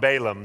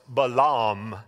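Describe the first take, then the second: First: The name has a plain, Americanized pronunciation. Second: The name has a foreign, original-sounding pronunciation. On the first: This is a casual local way of saying the name. "That's the Idaho version of Balaam" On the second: This is how the name is properly pronounced. "his name is actually pronounced Balaam"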